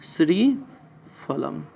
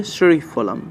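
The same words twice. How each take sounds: First: श्रीफलम drawn out slowly, syllable by syllable; slow dictation. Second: Said in the usual way. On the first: Shown as a demonstration. Teacher dictates the Sanskrit word slowly to students. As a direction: spell श्रीफलम out very slowly for note-taking.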